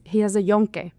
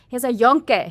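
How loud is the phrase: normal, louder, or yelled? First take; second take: normal; louder. First: It is said at a normal volume. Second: It is said more loudly than normal.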